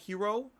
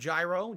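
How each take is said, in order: First: The word starts with a soft 'h' sound. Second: The word starts with a 'j' sound. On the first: This is the native way to say it. "it's authentically pronounced like hero" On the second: This is the common local way to say it. "instead of gyro"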